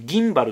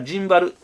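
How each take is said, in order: First: The word starts with a hard g sound. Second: The word starts with a j sound. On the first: "アメリカ英語ではねギンバルって言ってますけど" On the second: "まあ最近はなんかジンバル"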